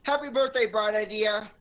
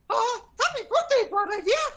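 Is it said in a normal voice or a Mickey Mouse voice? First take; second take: normal voice; Mickey voice. First: It is said in his normal voice. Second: It is said in a Mickey Mouse voice.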